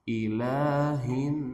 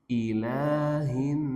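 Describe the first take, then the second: No difference in how they are said.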